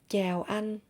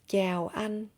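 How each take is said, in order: No difference in how they are said.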